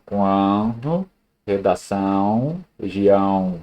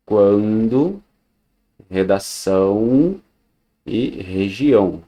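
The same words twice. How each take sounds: First: "Quando, redação, região" said with the nose pinched shut; holding the nose. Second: Said in the usual way. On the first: Shown as a demonstration. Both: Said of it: "se eu tapar o nariz".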